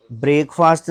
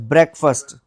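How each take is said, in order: First: ब्रेकफास्ट as 'brake-faast', two long vowels; wrong pronunciation. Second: Breakfast as 'brek-fust', short first vowel; correct pronunciation. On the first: Teacher mimicking a common mistake, wrong pronunciation. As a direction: misread ब्रेकफास्ट like 'brake' plus 'fast'. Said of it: "नहीं है". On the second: Teacher correcting the brake-fast reading, correct pronunciation. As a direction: stress BREK in breakfast, weak second syllable. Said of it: "this is breakfast". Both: Shown as a demonstration.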